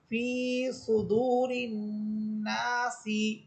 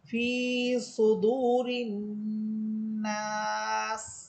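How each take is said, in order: First: The last word ends with a short vowel. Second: The last word ends on a bare consonant. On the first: The reading continues without stopping. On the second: The reader stops at this point.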